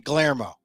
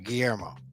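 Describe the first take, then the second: First: It is said with an English pronunciation. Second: It is said with a Spanish pronunciation. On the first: "if I was anglicizing it" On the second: "the Spanish way"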